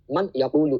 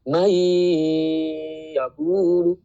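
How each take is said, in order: First: The n is pronounced clearly before the y. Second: The n is dropped and merges into the y. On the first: The speaker calls it wrong. "kalau kita baca idhar, man yaqulu, itu salah" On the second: The speaker calls it right. "nunnya itu nggak kebaca, tapi langsung ke ya"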